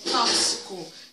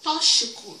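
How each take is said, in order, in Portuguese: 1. O x não é pronunciado como sh. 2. O x é pronunciado como sh. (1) "De acordo com a ortoépia, é tóxico" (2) "Como se fosse um C H"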